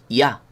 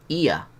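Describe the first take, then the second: First: It is said as one gliding syllable. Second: It is said as two separate vowel sounds. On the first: The speaker calls it right. "Hay que hacer un diptongo. Es ya" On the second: The speaker calls it wrong. "Pero no hay un hiato. No es ia"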